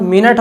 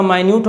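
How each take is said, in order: First: मिनट said short, MIN-it, stress on the first syllable; minute as in time. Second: माइन्यूट said my-NYOOT, stress on the second syllable; minute as in tiny. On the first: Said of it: "मगर इसका sound मिनट हो गया". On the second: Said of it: "इसका माइन्यूट हो गया". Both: Shown as a demonstration.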